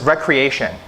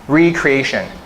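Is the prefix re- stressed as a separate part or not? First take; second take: not separate; separate. First: It is said as the ordinary word, re- unstressed. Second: The emphasis shifts so re- stands out separately. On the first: Having fun and play. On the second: Rebuilding and remaking who you are.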